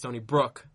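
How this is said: The stress falls on the second word. "he emphasizes the brook in Stony Brook"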